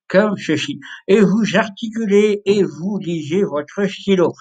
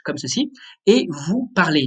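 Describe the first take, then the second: First: Slow, muffled talk around a pen; pen in teeth. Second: Said in the usual way. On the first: Shown as a demonstration. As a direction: read with a pen between the teeth. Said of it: "avec le stylo dans la bouche". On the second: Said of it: "Vous allez le mettre dans la bouche".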